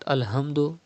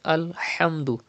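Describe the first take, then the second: First: The h is a light, ordinary h sound. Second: The h comes from deep in the throat. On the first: The speaker calls it wrong. "It's not Alhamdu" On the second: The speaker calls it right. "Pronounce ha from the middle part of your throat"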